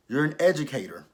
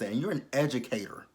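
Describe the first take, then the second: First: "You're" hit louder, falling hard; louder, scolding repeat of "You're an educator"; emphatic repeat. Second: Said in the usual way. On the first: Real, not acted. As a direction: punch "You're an educator" in disbelief.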